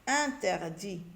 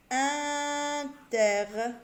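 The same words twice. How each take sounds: First: Said in the usual way. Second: Interdit stretched very slowly, a little higher; drawn-out word. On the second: Shown as a demonstration. Teacher to pupils, drawing out the syllables slowly. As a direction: pull the syllables of Interdit apart.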